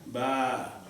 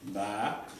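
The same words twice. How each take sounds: First: The vowel is drawn out long. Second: The vowel is short.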